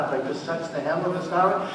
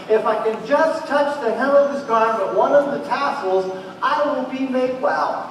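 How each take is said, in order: First: Sung, murmur the song's line lightly and quickly; sung, half-sung song line. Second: Rising, louder, pleading resolve; desperate hope. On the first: Shown as a demonstration. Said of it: "There's a song". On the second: Retold or imitated. The woman tells herself she'll be healed, urgent. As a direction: say it as her last chance, building higher. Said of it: "and she tells herself".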